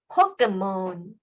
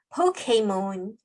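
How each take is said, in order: First: The middle syllable has a short eh vowel. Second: The middle syllable has an ay vowel. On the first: "포켓몬이라고도 하고요" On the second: "포케몬이라고도 발음을 하더라고요. 근데 가장 정확하다라고 짚어주시는 발음을 보니까 포케몬, A 발음을 넣어주시면 됩니다"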